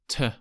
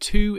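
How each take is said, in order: First: The vowel is reduced to a schwa. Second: The vowel is a full 'oo' sound. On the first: The speaker calls it right. "the strong schwa sound in to" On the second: The speaker calls it wrong. "It's not to"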